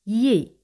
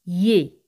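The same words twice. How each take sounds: First: "Ye." said like a Spanish Y sound; teacher isolating the ill sound as "Ye.". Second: "Ye." said again as a Spanish Y glide, louder; teacher drilling the ill sound as "Ye.". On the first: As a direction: give "Ye." the Spanish Y glide. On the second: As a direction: repeat "Ye." with a clear Y sound. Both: Shown as a demonstration. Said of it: "se pronuncian como Y española".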